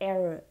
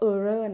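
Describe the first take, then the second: First: The word is said with an English pronunciation. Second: The word is said with a Thai-style pronunciation. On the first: The speaker calls it right. "ออกเสียงว่า" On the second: The speaker calls it wrong. "อย่าออกเสียงว่า error นะจริงๆ error มันเป็นภาษาแบบไทยๆ"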